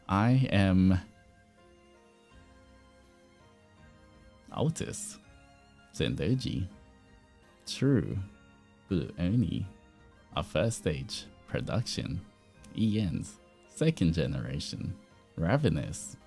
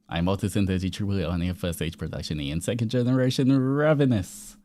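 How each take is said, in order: First: It is said in an odd put-on voice. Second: It is said in a natural voice.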